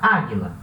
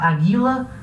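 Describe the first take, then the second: First: The stress is on the first syllable. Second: The stress is not on the first syllable. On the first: The speaker calls it right. "A sílaba tônica é a primeira" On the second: The speaker calls it wrong. "A gente não fala aguila"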